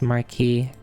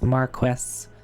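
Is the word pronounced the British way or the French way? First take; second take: French; British. First: The word is pronounced the French way. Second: The word is pronounced the British way. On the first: "as opposed to the French way, which is Marquis" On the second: "this is spelled the British way, which is Marquis"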